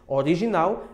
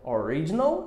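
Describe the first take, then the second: First: It is pronounced the Portuguese way. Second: It is pronounced the English way. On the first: "em português" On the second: "em English"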